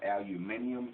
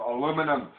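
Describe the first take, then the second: First: "aluminium" the non-American way, ending in -ee-um; low, matter-of-fact "aluminium", al-yoo-MIN-ee-um; foreign pronunciation. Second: Loud corrective "aluminum", stressed on LOO; "aluminum" the American way, ending in -num; American pronunciation. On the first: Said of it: "for those of you in other countries over there, you call it". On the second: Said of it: "It's called aluminum". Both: Shown as a demonstration.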